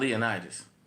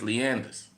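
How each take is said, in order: First: It is said as spelled, like Leonidas. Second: It is said like Leanders. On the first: This is how outsiders read the name. The speaker calls it wrong. "In New Orleans, it's not Leonidas" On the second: This is how locals say the name. The speaker calls it right. "The street is Leanders, but it's spelled Leonidas"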